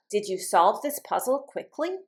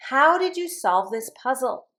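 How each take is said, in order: First: QUICKLY swept upward at the end; teacher's demo question ending up on QUICKLY; rising yes-no question. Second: HOW high and strong, dropping to PUZZLE; falling information question. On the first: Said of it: "My voice goes up". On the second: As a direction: start high on "How" and let "puzzle" fall. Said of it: "my voice goes down". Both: Shown as a demonstration.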